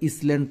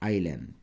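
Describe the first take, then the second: First: The word is said with an audible s sound. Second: The word is said with no s sound. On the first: The speaker calls it wrong. "তোমরা এটাকে আবার ইসল্যান্ড পড়িও না" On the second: The speaker calls it right. "উচ্চারণটা হচ্ছে আইল্যান্ড"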